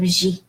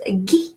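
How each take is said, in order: First: "G" said "zhee"; French "gi", soft consonant. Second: "Guy" said "ghee", French "gui"; hard-G "Guy", rhymes with "key". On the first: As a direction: say "G" with a soft "zh" before "ee". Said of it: "instead of G". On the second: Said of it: "it's pronounced Guy instead of G". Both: Shown as a demonstration.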